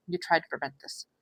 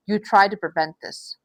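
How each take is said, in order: First: Softer, hushed repeat of the line; soft echo. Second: Said in the usual way. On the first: Real, not acted. Reader gently repeating it to the viewer, softly. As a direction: let it sink in, much softer.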